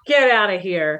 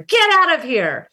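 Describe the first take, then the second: First: It is said in a joking, dismissive tone. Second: It is said in an angry, upset tone. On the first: The speaker is playfully brushing off the listener. "it can be a sort of joking, you know, like dismissal" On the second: The speaker is upset with the listener. "It can be an angry word when you're upset with each other"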